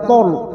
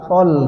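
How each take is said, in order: First: It is heavy, with rounded lips. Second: It is light, with an open mouth. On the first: The speaker calls it wrong. "bukan tol" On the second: The speaker calls it right. "tapi tol ... dibuka mulut pertanda bahwa lam itu tipis"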